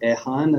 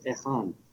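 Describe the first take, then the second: First: The name has no throaty kh sound. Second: The name has a rough throaty kh sound. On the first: "So you can say Ehan, as they call me in Japan" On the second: "The correct pronunciation of my name is Ihan"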